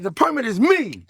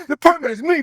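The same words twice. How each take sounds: First: Cocky boast. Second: Higher and louder, topping the first; rising swagger call; bigger cocky boast. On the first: Repeated boast, first take. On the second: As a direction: crank the boast up a notch. Repeated boast, bigger second take. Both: Retold or imitated.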